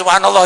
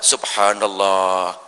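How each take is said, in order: First: It is said quickly. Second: It is said slowly.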